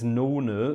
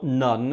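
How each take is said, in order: First: It is two syllables ending in an ah vowel. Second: It is one syllable ending in an n sound. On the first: The speaker calls it right. "it's nona, that's how you pronounce it" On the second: The speaker calls it wrong. "not none"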